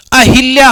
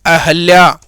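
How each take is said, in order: First: अहिल्या said with a full इ after ह, the common mistake; wrong pronunciation. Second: अहल्या with a short अ after ह, no इ sound; correct pronunciation. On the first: Teacher showing students the wrong अहिल्या. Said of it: "अहिल्या हम गलत बोलते हैं". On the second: Teacher giving the correct अहल्या after the wrong one. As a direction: say अहल्या as a-hal-ya. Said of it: "अहिल्या शब्द होता है अहल्या". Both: Shown as a demonstration.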